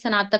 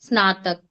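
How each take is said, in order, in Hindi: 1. यह क्षेत्रीय लहजे में बोला गया है। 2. यह मानक उच्चारण में बोला गया है।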